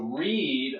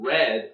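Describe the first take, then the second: First: The vowel is a long E sound. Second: The vowel is a short E sound. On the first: It is the present tense. "a long E sound" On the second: It is the past tense. "a short E sound"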